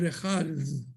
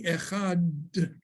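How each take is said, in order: First: The final consonant is a soft, breathy th. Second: The final consonant is a hard, stopped d. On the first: "the air it kept going through" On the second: "it would not be echad"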